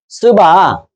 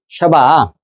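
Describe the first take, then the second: First: The name begins with a plain s sound. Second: The name begins with a sh sound. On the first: This is the form used in the translated text. "스바란 말은 원래 발음은 뭐예요?" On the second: This is the original pronunciation. "원래 발음"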